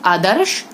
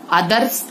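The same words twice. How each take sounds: First: Said in the usual way. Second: आदर्श said as "aadars"; wrong sibilant. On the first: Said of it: "सही". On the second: Shown as a demonstration. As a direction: end आदर्श on "s", not "sh". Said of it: "गलत".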